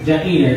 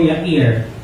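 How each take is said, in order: First: The name begins with a J sound. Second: The name begins with a Y sound.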